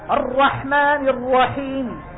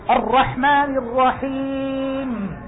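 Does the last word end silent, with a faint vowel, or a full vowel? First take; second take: faint vowel; silent. First: The final consonant carries a faint, cut-off vowel. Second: The final consonant ends with no vowel at all. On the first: "هذا جزء الحركة" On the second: "هذا إيش؟ سكون"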